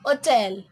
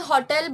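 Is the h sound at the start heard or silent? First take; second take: silent; heard. First: The word starts with a vowel, no h. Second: The word starts with a clear h sound. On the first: "अगर उन्होंने एच silent किया तो ये क्या हो जाएगा" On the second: "एच क्या होता है, आपका स्ट्रेस सिलेबल है"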